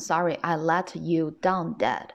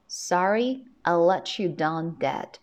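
First: The words "let" and "you" are said separately. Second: The words "let" and "you" are linked together. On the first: The speaker calls it wrong. "那我不能读成Sorry I let you down Dad" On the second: The speaker calls it right. "let you 我们2 个单词放在一块呢是要进行连读的"

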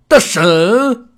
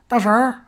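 First: The word ends with no r-coloured sound. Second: The word ends with an r-coloured sound. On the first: The speaker calls it wrong. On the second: The speaker calls it right.

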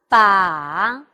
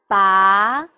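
First: The pitch dips low and then rises. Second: The pitch rises from middle to high.

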